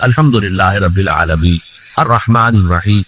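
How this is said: There is a clear pause between the phrases.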